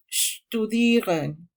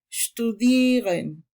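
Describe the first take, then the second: First: Studieren very slow, long stressed ie, rising end; German word stress. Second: Studieren, slowed, stress on the long ie; German word stress. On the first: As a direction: stretch studieren out, leaning on die. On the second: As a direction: say studieren with weight on die. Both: Shown as a demonstration. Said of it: "se acentúan en su penúltima sílaba".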